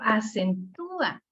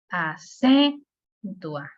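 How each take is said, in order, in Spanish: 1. El acento está en la tercera sílaba. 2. El acento está en la segunda sílaba. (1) "el sonido me lo pide" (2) "No se lo pudiera dar a, por ejemplo, la C"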